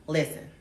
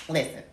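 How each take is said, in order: Both takes have the same delivery.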